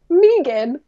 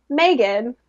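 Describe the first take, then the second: First: Megan with an "ee" first vowel, as MEE-gun; first syllable of Megan rhymes with "see"; imitated mispronounced Megan. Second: Megan with an "ay" first vowel, as MAY-gun; first syllable of Megan rhymes with "day"; usual Megan pronunciation. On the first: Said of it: "they would still be like". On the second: Retold or imitated. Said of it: "the way everyone pronounces it".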